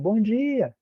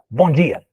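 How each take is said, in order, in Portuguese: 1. É dito em um tom caloroso e amigável. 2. É dito em um tom seco e depreciativo. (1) "É um cumprimento" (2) "é para encerrar a conversa e, e, e todo mundo cair fora"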